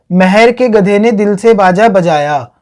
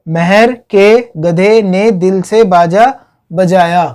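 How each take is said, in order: First: Said in the usual way. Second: Slow word-by-word repeat for learners; slow, separated words. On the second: Shown as a demonstration. Teacher repeating the crop memory trick to students, slow and separated. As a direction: spell out the phrase one word at a time.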